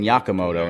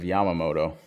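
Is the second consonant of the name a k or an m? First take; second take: k; m. First: The second consonant is a k sound. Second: The second consonant is an m sound. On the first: The speaker calls it wrong. "I was saying Yakamoto" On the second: The speaker calls it right. "instead of Yamamoto"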